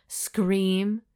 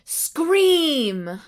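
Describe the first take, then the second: First: Said in the usual way. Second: High, drawn-out cry of the word; mock scream. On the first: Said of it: "and scream". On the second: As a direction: act out the scream theatrically. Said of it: "she had to clench her teeth and scream".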